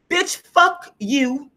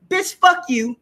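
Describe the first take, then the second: First: Slow, stretched, higher mock disdain; drawn-out contempt. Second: Quick higher mock snap of contempt; dismissive attitude. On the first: Voicing her inner attitude toward the relatives, slow stretched disdain. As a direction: drag each word out with scorn. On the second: Voicing her inner attitude toward the relatives, higher mock contempt. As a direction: toss it off with playful scorn. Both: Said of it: "my attitude says".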